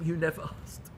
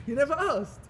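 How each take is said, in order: First: Said in the usual way. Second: "You never asked" pitched high, firmly; emphatic repeat. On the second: Retold or imitated. A friend telling the rabbi, emphatic "You never asked". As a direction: lift "never asked" in pitch to drive it home.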